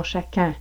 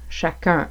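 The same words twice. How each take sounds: First: "chacun" sounding like "chacin", European French; European French accent. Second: "chacun" with rounded Quebec French "un"; Quebec French nasal ending, distinct from "in"; Quebec French accent. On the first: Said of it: "que vous entendriez probablement en français européen". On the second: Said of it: "En français québécois, on prononce un". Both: Shown as a demonstration.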